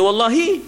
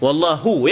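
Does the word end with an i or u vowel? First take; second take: i; u. First: The word ends with an i vowel. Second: The word ends with a u vowel. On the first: It means 'by Allah', an oath. The speaker calls it wrong. "Tak boleh wallahi" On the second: It means 'and Allah'. The speaker calls it right. "Wallahu, ya"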